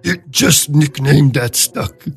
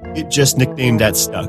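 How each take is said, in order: First: It is said in a gruff put-on monster voice. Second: It is read in the speaker's normal voice.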